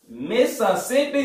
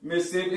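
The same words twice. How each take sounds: First: It is said the outsiders' way, in full syllables. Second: It is said the Southern way, in two syllables.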